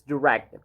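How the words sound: It is said with an American accent. "in American English it's direct"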